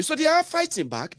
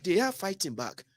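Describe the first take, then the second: First: "are" high and stretched out; stress on are. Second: "are" said softly, with the line falling away; quiet repeat. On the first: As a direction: lift the word are well above the rest. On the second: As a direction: drop the voice for the repeat. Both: Shown as a demonstration.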